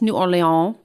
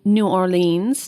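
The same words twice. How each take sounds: First: It is said with a French accent. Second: It is said with an English accent.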